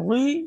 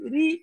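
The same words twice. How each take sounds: First: The r is pronounced heavy and thick. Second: The r is pronounced light and thin. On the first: The speaker calls it wrong. "রি এরকম মোটা বলা যাবে না" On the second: The speaker calls it right. "দেখেন রি পাতলা করে হচ্ছে"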